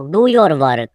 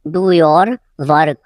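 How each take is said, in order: First: Said in the usual way. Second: "do your", a pause, then "work"; slow it down, setting "work" apart; slow repeat. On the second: Shown as a demonstration. Teacher repeating for learners, slow and split.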